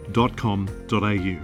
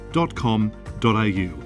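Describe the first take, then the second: No difference in how they are said.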